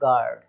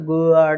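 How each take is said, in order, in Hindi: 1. g के बाद 'u' की ध्वनि नहीं आती। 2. g के बाद 'u' की ध्वनि आती है। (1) "केवल गार्ड" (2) "इस तरीके से नहीं बोलना"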